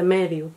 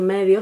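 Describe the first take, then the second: First: Medio ending in a closed u, medyu; dialect medio. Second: Said in the usual way. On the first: Shown as a demonstration. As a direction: close the final vowel of medio to u. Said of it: "se dice medio". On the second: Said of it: "en vez de decir medio".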